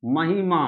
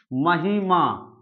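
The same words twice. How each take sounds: First: Said in the usual way. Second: Mahima stretched very slowly, syllable by syllable; teacher slowly spelling out Mahima; slowly drawn out example. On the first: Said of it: "same word repeated at usual pace". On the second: Shown as a demonstration. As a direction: draw out Mahima slowly so students catch each sound. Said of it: "teacher drawing out an example word".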